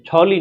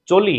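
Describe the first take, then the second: First: The first consonant is aspirated, 'chh'. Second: The first consonant is unaspirated, 'ch'. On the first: The speaker calls it wrong. "छाता वाला नहीं है, छौली नहीं है" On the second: The speaker calls it right. "चम्मच वाला है"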